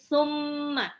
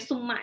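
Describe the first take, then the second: First: The doubled m is held with a nasal hum. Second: The doubled m is short and plain. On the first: The speaker calls it right. "tapi summa. ... dibaca gunnah. Dengung" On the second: The speaker calls it wrong. "Gak boleh summa doang"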